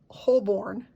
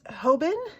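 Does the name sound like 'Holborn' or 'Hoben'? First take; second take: Holborn; Hoben. First: The name is said like 'Holborn'. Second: The name is said like 'Hoben'. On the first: The speaker calls it wrong. "apparently this is not Holborn" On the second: The speaker calls it right. "It's Hoben, H O B E N"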